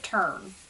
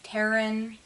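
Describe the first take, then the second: First: The word is said as one syllable. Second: The word is said as two syllables. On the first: "I pronounce it turn" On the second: "I don't know if I'm pronouncing it wrong and it's Terran"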